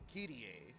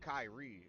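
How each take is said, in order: First: The name is said with a Japanese pronunciation. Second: The name is said with an English pronunciation. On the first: "in Japanese it's like Kirie" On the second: "in English it's pronounced like Kyrie"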